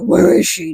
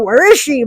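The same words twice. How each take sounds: First: It is said in a Batman impression. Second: It is said in a normal voice.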